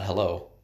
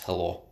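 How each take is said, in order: First: Hello is said with an English accent. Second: Hello is said with a Russian accent. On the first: "it's not hello" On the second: "it's hello, because they're using their sounds"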